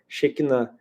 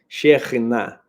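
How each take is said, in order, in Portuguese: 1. A consoante do meio é um som de k simples. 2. A consoante do meio é um som gutural da garganta. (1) "que é só o som do, do K" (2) "bem gutural"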